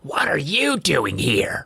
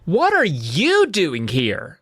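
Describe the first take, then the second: First: It is said in a hoarse, rough voice. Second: It is said in a clear, normal voice.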